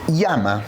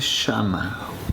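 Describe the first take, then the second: First: It is said with a Chilean accent. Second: It is said with an Argentine accent. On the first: "Un chileno va a decir llama" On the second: "un argentino dice llama"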